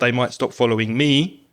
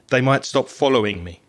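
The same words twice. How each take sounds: First: The word 'me' is said with strong stress. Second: The word 'me' is said without stress. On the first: The speaker calls it wrong. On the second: The speaker calls it right. "I would probably say"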